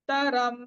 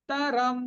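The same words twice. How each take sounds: The two takes are said the same way.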